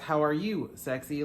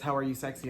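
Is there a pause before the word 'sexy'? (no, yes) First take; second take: yes; no. First: There is a pause before 'sexy'. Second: There is no pause before 'sexy'. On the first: The sender is calling the reader sexy. "like calling me sexy" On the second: The sender is asking how the reader is sexy. "I guess I was just born this way"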